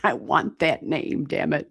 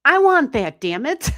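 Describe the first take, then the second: First: Said in the usual way. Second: High, loud playful grab; hammed-up "I want that"; mock covetous outburst. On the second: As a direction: squeal it like a jealous kid. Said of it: "I'm like".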